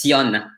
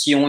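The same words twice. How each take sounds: First: Sion with a clear oral o, Spanish style. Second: Slow French sion with nasal o. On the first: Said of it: "in Spanish". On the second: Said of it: "it's sion in French". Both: Shown as a demonstration.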